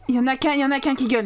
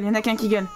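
First: Fast, breathless rattled-off count; rapid rattle. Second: Said in the usual way. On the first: Real, not acted. Player counting screaming babies, rattled off fast. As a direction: fire it off fast. Repeats the line.

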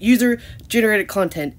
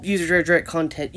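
First: "user-generated" slowly, every syllable sounded; slow down and articulate "user-generated" fully; careful correction. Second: "user-generated" slurred into "user-drerdret"; stumbled pronunciation. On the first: Repeats it to correct the stumble. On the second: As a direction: trip over the middle of "user-generated". Garbled first try, then corrected. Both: Real, not acted.

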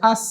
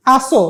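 First: আস ending cleanly on a long s; no vowel or push after the s in আস; no bounce. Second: আসো with an extra "o" pushed after the s; wrongly bounced s. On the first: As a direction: let আস trail into a plain hiss. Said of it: "এখানে কোনো ধাক্কা নাই". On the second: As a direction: add a bouncing vowel to the end, আসো. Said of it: "এটা বলছি না". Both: Shown as a demonstration.

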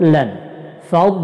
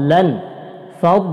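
Both takes have the same delivery.

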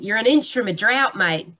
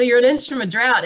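First: Playful demo of an Australian accent; Aussie accent. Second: Said in the usual way. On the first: Shown as a demonstration. Speaker showing listeners an Australian accent, Aussie accent. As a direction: put on an Aussie twang. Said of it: "this is my Aussie accent".

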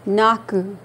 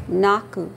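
First: Naku with both syllables stressed; two stresses. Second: Naku with both syllables stressed, falling at the end; two stresses. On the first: Teacher models Naku for students, stressing both syllables. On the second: Teacher repeats Naku for students, stressing both syllables. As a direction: hit both syllables of Naku and let it fall. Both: Shown as a demonstration. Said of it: "Two stresses here".

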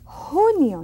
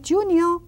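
First: "Junio" with the J said as an H, louder, higher; junio with H sound. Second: "junio" with the J said as sh, the wrong way; mock the wrong "sh" J in "junio"; wrong J sound. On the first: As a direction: breathe the J as H in "Junio". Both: Shown as a demonstration. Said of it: "not junio".

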